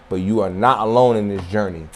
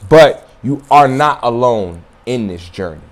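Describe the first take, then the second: First: Softer repeat. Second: Said in the usual way. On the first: Shown as a demonstration. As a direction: lower and softer, sinking in.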